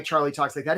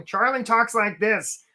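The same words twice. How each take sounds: First: Said in the usual way. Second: Slow, raised cartoon character voice; goofy, stretched-out cartoon delivery; Charlie the crab. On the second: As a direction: put on a drawled, silly crab voice. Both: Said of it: "I don't know why Charlie talks like that".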